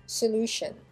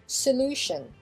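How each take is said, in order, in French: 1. Il est prononcé à l'anglaise, accent sur la deuxième syllabe. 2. Il est prononcé à l'anglaise, accent sur la deuxième syllabe.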